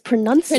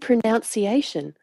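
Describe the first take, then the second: First: The second syllable sounds like 'nun'. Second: The second syllable sounds like 'noun'. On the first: The speaker calls it right. "and it's pronunciation" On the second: The speaker calls it wrong. "You're saying pronunciation"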